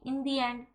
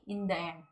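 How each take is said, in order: First: 'The' is said with a long 'thee' vowel. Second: 'The' is said with a short 'thuh' vowel. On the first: The speaker calls it right. "कुछ कहते हैं कि इन दी एंड" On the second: The speaker calls it wrong. "कभी कभी कुछ लोग कहते हैं कि इन द एंड"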